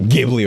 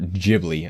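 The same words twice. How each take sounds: First: The word begins with a hard G sound. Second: The word begins with a J sound. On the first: This is how it is said over here. "We pronounce it Ghibli over here because there's a G on there" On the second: This is how it is said in Japan. "I believe is how they pronounce it in, in Japan"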